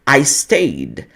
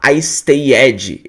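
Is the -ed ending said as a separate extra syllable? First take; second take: no; yes. First: The ending has no vowel, only a faint final sound. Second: The ending is a full extra syllable with a vowel. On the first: The speaker calls it right. "eu falo I stayed" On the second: The speaker calls it wrong. "eu não vou falar I stayed"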